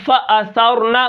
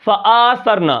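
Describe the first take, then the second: First: Said in the usual way. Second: فَآثَرْنَ with the hamza vowel drawn long; stretched hamza. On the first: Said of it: "فَأَثَرْنَ کی جگہ آپ نے فَآثَرْنَ پڑھ دیا". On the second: Shown as a demonstration. Quran teacher showing the wrong, lengthened hamza. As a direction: lengthen the first alif in فَآثَرْنَ. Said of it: "آپ نے حمزہ کو بڑھا دیا".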